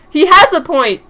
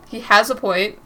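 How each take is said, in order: First: He has a point, said loud and high; loud aside. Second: Said in the usual way. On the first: Shown as a demonstration. Player commenting loudly during the argument.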